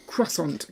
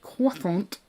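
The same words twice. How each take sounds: First: Croissant said as KRUSS-ont; KRUSS-ont, R sounded in croissant; hard R. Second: Croissant said as KWASS-ont; soft R-less KWASS-ont for croissant; without hard R. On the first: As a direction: say croissant with a clear kr. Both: Shown as a demonstration. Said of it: "with or without a hard R".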